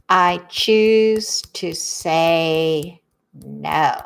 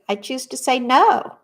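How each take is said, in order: First: Very slow and lower; a slow, lower and deliberate I choose to say no; slow, low affirmation. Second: Said in the usual way. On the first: Shown as a demonstration. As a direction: let each word settle, savoring the choice.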